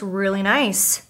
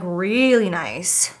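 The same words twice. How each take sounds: First: Said in the usual way. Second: "really" drawn out slowly for emphasis; stress on really. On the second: Real, not acted. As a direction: stretch "really" long before "nice". Repeats phrase, stretching it.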